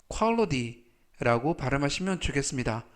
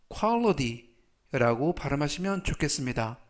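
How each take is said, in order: The two takes are said the same way.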